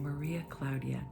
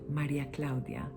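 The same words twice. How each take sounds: First: The name is said with English pronunciation. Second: The name is said with Spanish pronunciation. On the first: "in English" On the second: "in Spanish"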